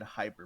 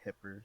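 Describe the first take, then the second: First: The first vowel is a long 'eye' sound. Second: The first vowel is a short 'ih' sound. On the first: The speaker calls it right. "it's meant to be spe- uh, said hyper" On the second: The speaker calls it wrong. "a lot of people do say hipper"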